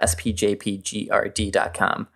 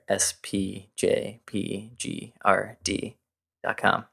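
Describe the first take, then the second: First: It is said at a quick pace. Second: It is said at a slow pace.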